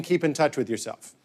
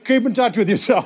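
First: Lower, softer deadpan quote; dad's sign-off, understated. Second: Lightly voiced dad ending a call; dad's sign-off, acted out. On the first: Retold or imitated. Son reporting dad's phone sign-off, understated and quiet. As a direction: drop down and report it drily. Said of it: "he ends every phone call by saying". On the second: Dad ending call with a senator, lightly voiced. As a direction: act out the dad's chummy phone farewell. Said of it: "he's like".

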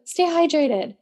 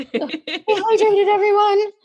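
First: Said in the usual way. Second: High, slow sing-song call of Stay hydrated; sing-song announcer. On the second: Acted. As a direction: draw it out like a cheerful announcer. Playful reminder to listeners.

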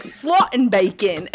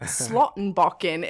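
First: "Slottenbacon" said slowly and a bit louder, ending turned into the English word bacon; tourist mispronunciation. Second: "Slottenbakken" said slowly and carefully, the way the locals say it; street name said properly. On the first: Mocking their own bad pronunciation on a trip, loud and slow. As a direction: mangle "Slottenbacon" like a clueless tourist. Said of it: "and we would be like".

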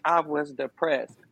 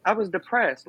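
First: "I was depressed" said slowly and firmly; slow emphasis. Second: Said in the usual way. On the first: Real, not acted. Repeating for weight to the host, slow and firm. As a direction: lean into "depressed" to let it land. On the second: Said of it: "Like, I was depressed".

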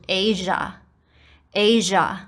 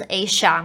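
First: Asia with a voiced "zh" sound in the middle; native-speaker Asia. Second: Asia with an "sh" sound in the middle; common wrong Asia. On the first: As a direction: say Asia with a buzzing "zh". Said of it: "sh无声的子音变成日". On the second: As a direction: say Asia with a voiceless "sh". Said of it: "这个S的部分是念sh". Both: Shown as a demonstration.

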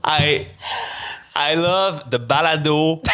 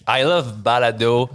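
First: Each word laid out slowly and deliberately; slow careful English. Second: Said in the usual way. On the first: Shown as a demonstration. Careful take of the English line, very slow. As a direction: say it slowly for the host. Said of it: "with the other version". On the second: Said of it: "I come back with the other version".

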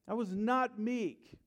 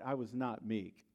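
First: "not" drawn out high and loud in "I was not meek"; stress on not. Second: Said in the usual way. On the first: Acted. Repeated with emphasis.

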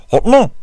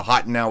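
First: "Hot Now" honked loud and high as "ho' no"; voice drowning enunciation. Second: Said in the usual way. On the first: Retold or imitated. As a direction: mimic a booming DJ mangling "Hot Now". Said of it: "the voice was just kinda drowning out". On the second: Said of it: "Instead of saying".

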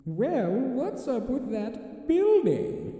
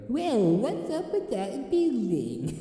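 First: High, slow sly British voice; tempting whisper of a devilish conscience; Pink Panther conscience voice. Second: High, slow, slurred sly voice; slurrier conscience voice. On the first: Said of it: "let me see if I can get the voice down". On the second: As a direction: slur it like a smug tempter. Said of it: "he sounds, like, slurrier". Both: Acted.

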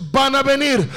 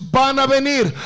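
No difference in how they are said.

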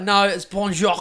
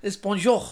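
First: Bonjour with an extra sound on the end, as the daughter says it; imitating the daughter's bonjour with an added ending. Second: Bonjour said as he insists, with no sound on the end; dad correcting French, bonjour ending clean; his bonjour. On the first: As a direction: imitate the kid's bonjour with a tail on it. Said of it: "And she's like". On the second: Retold or imitated. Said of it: "And I'm like".

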